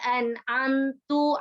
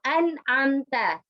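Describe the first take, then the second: First: The word ends with a u vowel. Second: The word ends with an a vowel. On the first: The meaning has changed. The speaker calls it wrong. "harusnya fathah menjadi dhammah" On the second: You gave favor. The speaker calls it right. "di harokat fathahnya"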